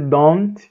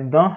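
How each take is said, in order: First: The final T is clearly released. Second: The final T is silent, not released. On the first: The speaker calls it wrong. "não vai dizer don't" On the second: The speaker calls it right. "vai dizer I don't have"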